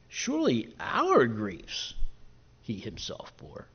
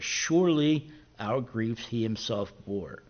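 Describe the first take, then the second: First: The word "our" is given strong stress. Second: No single word is given special stress.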